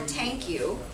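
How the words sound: The word begins with a t sound.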